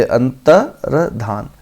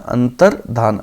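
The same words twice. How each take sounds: First: अंतर्धान drawn out very slowly, each syllable separate; slow careful pronunciation. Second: अंतर्धान said clearly, ending low; teacher models अंतर्धान syllable by syllable; careful pronunciation. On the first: Teacher drilling the correct word for students, very slow. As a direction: stretch अंतर्धान out slowly for the class. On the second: Teacher showing students how to say it, careful pronunciation. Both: Shown as a demonstration. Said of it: "कैसे होता है?".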